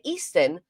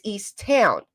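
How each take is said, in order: First: "Easton" said as one quick word, East and Town run together; shortened local way. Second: "East Town" said as two clear words, the T of Town sounded; careful full form. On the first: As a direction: say "Easton" fast, swallowing the T of Town. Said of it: "See how I said we". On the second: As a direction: split it: "East" then "Town". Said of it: "but it's East Town". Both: Shown as a demonstration.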